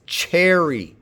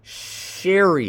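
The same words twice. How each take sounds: First: Cherry begun with a crisp CH; slow demo of cherry with CH, not SH; affricate onset. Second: Sherry begun with a long hushing SH; slow demo of sherry with SH, no T before it; soft SH onset. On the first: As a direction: hit the CH at the start of cherry. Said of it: "begins with an affricate". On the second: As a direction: draw out the SH at the start of sherry. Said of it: "It's not sherry". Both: Shown as a demonstration.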